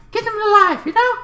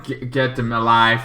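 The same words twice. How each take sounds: First: Much higher, squeaky plea; hammed-up high voice; mock high urging. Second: Said in the usual way. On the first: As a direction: pitch it way up like a cartoon.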